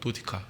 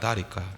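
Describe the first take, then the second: First: It has an oh vowel and a clear t. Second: It has an ah vowel and a flapped t.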